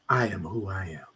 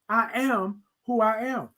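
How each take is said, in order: First: It is said softly and smoothly. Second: It is said loudly, yelled out.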